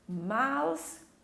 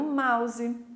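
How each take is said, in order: First: It is said with an English-style pronunciation. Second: It is said with a Portuguese-style pronunciation.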